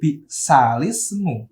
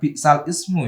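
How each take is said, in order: First: The l takes an i vowel, linking into ismu. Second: The l is cut off before a separate ismu. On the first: The speaker calls it right. "lamnya dibaca kasroh" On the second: The speaker calls it wrong. "bukan bi'sal ismu ya"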